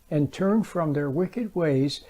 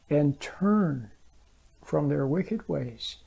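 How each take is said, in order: First: It is read without special stress on turn. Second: The word turn is emphasized.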